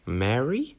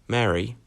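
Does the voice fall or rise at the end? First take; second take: rise; fall. First: The pitch rises at the end, like a question. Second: The pitch falls at the end, like a statement. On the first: The speaker is unsure it is really her. "As if you're not sure that it's Mary" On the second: The speaker is about to start talking to her. "that sounds like you're about to start speaking to her"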